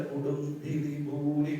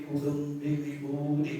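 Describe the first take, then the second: Both takes have the same delivery.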